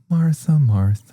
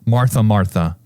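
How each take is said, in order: First: It is said in a gentle, soft tone. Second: It is said in a stern, sharp tone.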